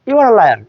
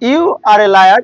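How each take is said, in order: First: The words run together and the article is swallowed. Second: Each word is said fully and separately.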